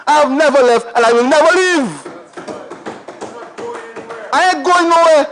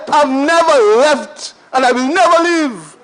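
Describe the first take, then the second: First: Light laughing vow; laughing declaration. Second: Measured repeat leaning on "never"; slow emphatic vow. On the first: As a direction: chuckle while promising to stay. Declaring loyalty to constituency. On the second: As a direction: drive the promise home deliberately. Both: Real, not acted.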